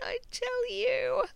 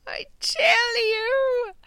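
First: Said in the usual way. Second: High, drawn-out playful yell; mock shout. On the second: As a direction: stretch it into a comic cry. Repeated playful declaration.

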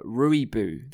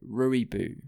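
First: Rooibos said slowly as ROY-boss; own pronunciation. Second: Rooibos said slowly as ROY-boss again; slow, careful Rooibos, ROY-boss; own pronunciation. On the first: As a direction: Rooibos drawn out, each syllable clear. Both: Shown as a demonstration. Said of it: "that's how I say it".

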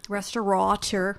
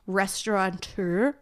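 First: "Restaurateur" said with no n, res-tuh-ruh-TUR; "Restaurateur" carefully without the n; corrected pronunciation. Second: "restaurateur" said with an extra n, like restaurant-teur; "restaurateur" slipping an n in before the t; wrong pronunciation. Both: Real, not acted. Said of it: "There is no N".

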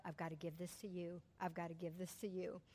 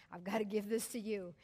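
First: Hushed prayer. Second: Said in the usual way. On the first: Retold or imitated. Praying to God, letting go.

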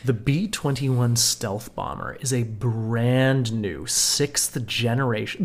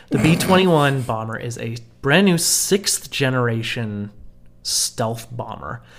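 First: Said in the usual way. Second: Over-the-top American announcer accent. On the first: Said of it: "This is not my American accent". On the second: Shown as a demonstration. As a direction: read it like a proud American. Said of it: "read this in the most American accent that I can".

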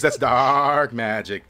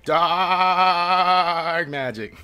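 First: Very slow, heavy "That's dark magic."; ominous satyr. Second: "Dark magic." dragged out even slower and higher; ominous satyr. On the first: Satyr warning the elf about the goo, slow and ominous. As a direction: lean into "dark magic" slowly. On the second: Satyr repeating his warning to the party, very slow and spooky. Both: Acted. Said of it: "He says".

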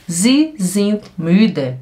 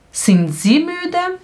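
First: "sie sind müde" slow and falling at the end; statement tune. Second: "Sind sie müde" slow, climbing high on "müde"; question tune. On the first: Teacher contrasting statement with question, slow falling "müde". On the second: Teacher showing learners the question, slow high rise on "müde". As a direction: ask "Sind sie müde" with a long upward lift. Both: Shown as a demonstration.

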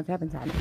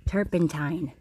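First: "turpentine" said with an m at the end, like turpentime; "turpentine" said with a sloppy m ending; slip on turpentine. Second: "Turpentine." said carefully, with a clear held n at the end; "Turpentine." said properly, the ending held out; corrected turpentine. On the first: Real, not acted. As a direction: blur the end of "turpentine" into "time". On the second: Shown as a demonstration. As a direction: stress the final "tine" of "Turpentine.". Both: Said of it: "Not time".

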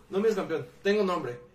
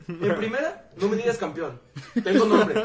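First: Said in the usual way. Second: Fired-up retort. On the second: Retold or imitated. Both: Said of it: "yo sí me emprendí".

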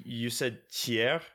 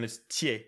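First: THIERS said "tee-AIR", r sounded; wrong pronunciation. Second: THIERS said "tee-AY", r silent; right pronunciation. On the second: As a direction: end THIERS on "ay", dropping the R. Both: Shown as a demonstration. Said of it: "you said Thiers and it's Thiers".

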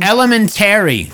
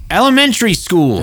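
First: Loud, high "Elementary" with a full, stressed TERRY ending; mock his "Elementary", punching el-uh-men-TERRY; stress on TARY. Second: Loud, high "Elementary" with TARY reduced to "tree"; usual pronunciation. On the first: Host mocking his friend's word, "Elementary" loudly said el-uh-men-TERRY. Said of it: "such emphasis on the Terry". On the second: Shown as a demonstration. Host loudly correcting his friend, "Elementary" said el-uh-MEN-tree. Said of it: "That's how you say it".

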